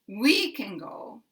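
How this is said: The word we carries strong stress. The listener may have the wrong information. "putting very big stress on we"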